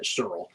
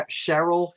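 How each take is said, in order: First: Cheryl in a Jersey accent, lower and softer, as "Churl". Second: Said in the usual way. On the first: Shown as a demonstration. Auctioneer jokes about saying the bidder's name in her Jersey accent. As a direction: Cheryl squeezed to one Jersey syllable "Churl". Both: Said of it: "This, my Jersey accent".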